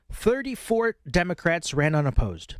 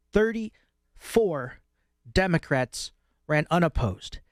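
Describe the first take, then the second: First: Said in the usual way. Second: "Thirty-four" drawn out very slowly, with a pause before "Democrats"; emphatic repeat. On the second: Real, not acted. Commentator repeating the damning figure to listeners, slow emphasis on "Thirty-four". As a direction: stretch and separate "Thirty-four" for weight, then land "Democrats ran unopposed".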